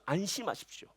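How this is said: It is said in a heartfelt, pleading tone. The speaker fully understands their hardship. The speaker calls it right. "간절한 마음으로 얘기하는 거예요"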